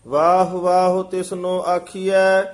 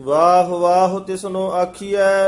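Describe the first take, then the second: The two takes are said the same way.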